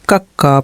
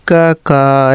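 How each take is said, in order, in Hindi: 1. पहला स्वर छोटा है, और क की आवाज़ दोहरी है। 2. दो अलग-अलग अक्षर, हर एक में लंबा स्वर। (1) "कक्का पढ़ते हैं ना" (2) "ऐसे तो पढ़ते नहीं है"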